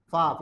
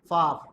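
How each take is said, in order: First: It is said in a South African accent. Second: The same.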